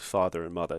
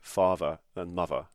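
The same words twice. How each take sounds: First: It is said in a plain, neutral accent. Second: It is said in a put-on Cockney accent. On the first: "he doesn't refer to father and mother" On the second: "something like a kind of mock Cockney accent"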